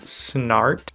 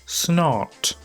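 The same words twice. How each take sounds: First: It is said with an American accent. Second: It is said with a Swedish accent.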